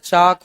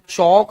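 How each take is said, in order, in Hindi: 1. स्वर 'ah' जैसा है, जैसे chaak में। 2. स्वर 'aw' जैसा है, जैसे chauk में। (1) "चाक होता है" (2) "अरे चौक नहीं होता है"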